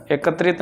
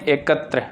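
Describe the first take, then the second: First: एकत्रित ending in "trit"; wrong form shown. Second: एकत्र ending on a short "tra"; correct form shown. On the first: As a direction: say एकत्रित with an added "it". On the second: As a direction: stop एकत्र at "tra", voice falling. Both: Shown as a demonstration. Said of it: "एकत्रित नहीं".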